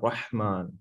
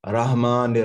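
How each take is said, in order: First: The h is a strong throaty sound. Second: The h is a plain, light sound. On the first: The speaker calls it right. "हम कहते हैं रहमान" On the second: The speaker calls it wrong. "ये हा तो नहीं आता ... ये गलत है"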